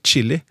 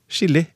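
First: The first sound is sharper and more effortful. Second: The first sound is soft and relaxed. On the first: "enn å si chili" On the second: "det kan være enklere å si chili"

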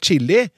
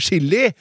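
First: It begins with a ch sound as in child. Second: It begins with a sh sound as in sjokolade. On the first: The speaker calls it right. "«ch-lyden», «ch», som blir brukt i det engelske ordet «child»" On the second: The speaker calls it wrong. "med samme SJ-uttalelse som i sjokolade"

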